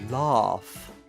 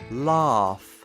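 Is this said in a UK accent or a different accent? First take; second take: UK; UK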